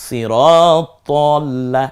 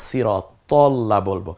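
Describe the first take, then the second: First: সিরাত তল্লা chanted slow with rounded তল্লা; slow tajweed chant of সিরাত তল্লা; recited pronunciation. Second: সিরাত তল্লা with short তল্লা, no long a, slowly; careful slow সিরাত তল্লা; correct pronunciation. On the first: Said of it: "সিরাত তল্লা না সিরাত তাল্লা". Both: Shown as a demonstration.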